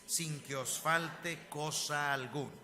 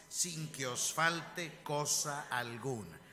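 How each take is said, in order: Both takes have the same delivery.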